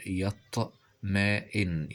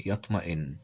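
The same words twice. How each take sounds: First: Slow يطمئن, broken into syllables; sounded out. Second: Said in the usual way. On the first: Shown as a demonstration. Teacher showing the hamza in يطمئن, slowly syllabified.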